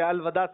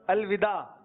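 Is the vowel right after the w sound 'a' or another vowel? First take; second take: a; other. First: The vowel after the w is 'a'. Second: The vowel after the w is not 'a'. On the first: The speaker calls it right. "وداع واو پہ زبر ... الوداع صحیح ہے" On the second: The speaker calls it wrong. "اس کو پڑھتے ہیں لوگ الوداع, یہ غلط ہے"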